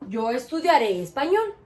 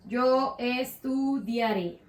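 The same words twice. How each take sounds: First: Said in the usual way. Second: "Yo estudiaré" stretched out slowly; measured, slow dictation of "Yo estudiaré"; slow modelling. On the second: Shown as a demonstration. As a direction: draw out each syllable of "Yo estudiaré" for the class. Teacher models the conjugated form slowly.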